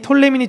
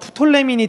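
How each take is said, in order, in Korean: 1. 이 이름은 바로 T 소리로 시작합니다. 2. 이 이름은 P 소리로 시작합니다. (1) "피가 묵음이니 아니니" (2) "피가 묵음이니 아니니"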